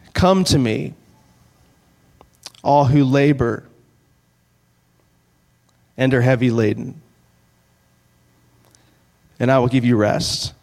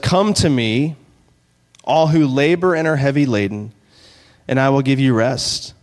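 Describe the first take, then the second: First: It is read slowly. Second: It is read at a normal pace.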